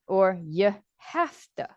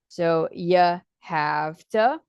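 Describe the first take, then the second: First: The word 'have' ends with an F sound. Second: The word 'have' ends with a V sound. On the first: "and some say f" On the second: "some people say v"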